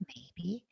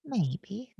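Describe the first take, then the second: First: Maybe whispered, much softer; echoed maybe. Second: Said in the usual way. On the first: Retold or imitated. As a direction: let the second maybe fade to a whisper. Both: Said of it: "It's like".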